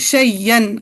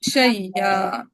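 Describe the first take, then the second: First: The word ends with an n sound. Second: The word ends with a long vowel. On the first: The reading continues without stopping. "एकदम वक्फ ना करें" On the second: The reader stops on this word. "अब इस पे वक्फ बिल इब्दाल करें।"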